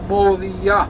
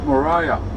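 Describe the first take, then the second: First: Moriah is pronounced with a Hebrew accent. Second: Moriah is pronounced with an English accent.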